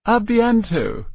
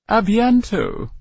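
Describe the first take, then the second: First: A bientôt repeated high and slow in French. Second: A bientôt said high and slow with a French nasal vowel; French farewell. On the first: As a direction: say A bientôt again, French and drawn out. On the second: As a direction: lilt A bientôt like a French lady. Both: Acted. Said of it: "French for".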